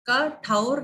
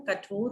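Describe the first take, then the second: First: "कठोर" said as "ka-thaur"; wrong AU vowel in "कठोर"; wrong pronunciation. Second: "कठोर" softer, with round "o"; pure O vowel in "कठोर"; correct pronunciation. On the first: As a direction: open the O of "कठोर" to "au". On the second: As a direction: say "कठोर" as "ka-thor". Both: Shown as a demonstration. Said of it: "कठोर नहीं होता है".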